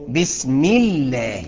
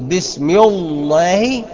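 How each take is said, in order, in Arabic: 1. اللام في الله تُنطق خفيفة ومرققة. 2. اللام في الله تُنطق ثقيلة ومفخمة. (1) "نرققها امتى؟ اقول لك اذا كان قبلها مكسور" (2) "تقدر تقول بسم الله؟ لا، تبقى خطأ كبير"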